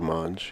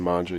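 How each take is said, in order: First: The final vowel is dropped. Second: The final vowel is clearly pronounced. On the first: "It's a dialect of like Southern Italy to drop the last vowel" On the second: "instead of saying"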